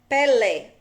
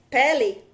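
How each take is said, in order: First: The final syllable is stressed and its vowel long. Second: The final syllable is unstressed and its vowel short. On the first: "E Pelé já é longo" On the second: "o lê, você vê que é bem curto"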